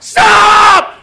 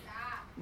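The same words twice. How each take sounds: First: It is said forcefully, like a mom. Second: It is said softly and mildly.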